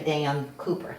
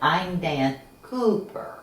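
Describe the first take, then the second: First: The name is said quickly and plainly. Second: The name is drawn out slowly.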